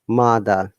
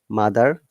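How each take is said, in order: First: The final R sound is silent. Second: The final R sound is clearly pronounced. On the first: "British accent or British I P A" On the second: "You have to stress on R"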